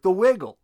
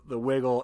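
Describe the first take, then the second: First: Higher and louder, hyped-up call of the wiggle; excited shout. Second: Said in the usual way. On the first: Retold or imitated. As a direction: yell the wiggle like bandmates egging him on. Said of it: "And they're like".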